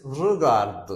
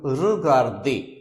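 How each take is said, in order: First: "regard" ending on the D, last E unvoiced in speech; silent final E. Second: "regarder" with a stressed, louder "day" ending; final E sounded. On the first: Teacher shows word without accent, "regard" ending on D. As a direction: say "regard" with nothing but a D at the end. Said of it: "last E will remain silent". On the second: Teacher shows accented E, "regarder" ending in clear "day". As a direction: say "regarder" as "ruh-gar-day". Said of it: "But if you put accent here". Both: Shown as a demonstration.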